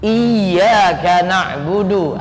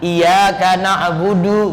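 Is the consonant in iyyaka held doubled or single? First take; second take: doubled; single. First: The y sound in iyyaka is held doubled. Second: The y sound in iyyaka is single, not held. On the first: The speaker calls it right. "ada tasydid dibaca tasydid" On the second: The speaker calls it wrong. "Tasydidnya hilang"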